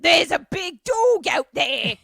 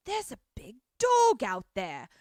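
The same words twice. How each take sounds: First: High, loud ghoul shriek. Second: Said in the usual way. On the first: Retold or imitated. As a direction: screech it like a cartoon ghoul. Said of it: "a ghoul voice". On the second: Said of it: "like, shushes Michael Sheen and is like".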